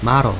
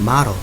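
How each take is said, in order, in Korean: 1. 미국식 영어 발음으로 발음돼요. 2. 미국식 영어 발음으로 발음돼요.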